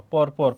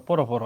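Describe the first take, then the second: First: পর পর as "por por", ending on r; spelling-style "por, por" for পর পর; written-form reading. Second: পর পর as "poro poro", a rounded o after each r; teacher's model of পর পর as "poro-poro"; added final vowel. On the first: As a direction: say পর পর with no vowel after each r. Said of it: "অ এর উচ্চারণ কি হয়". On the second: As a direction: open each পর into two syllables, "po-ro". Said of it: "উকার". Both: Shown as a demonstration.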